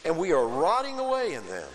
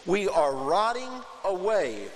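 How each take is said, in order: First: Said in the usual way. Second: Rotting drawn out slowly and a bit higher; stress on rotting. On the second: Shown as a demonstration. Preacher dwelling on the people's confession with a slow stressed rotting. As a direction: lean hard on rotting, slowly. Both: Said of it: "self-confession".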